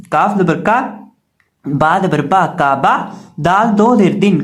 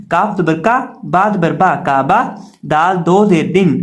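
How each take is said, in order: Both takes have the same delivery.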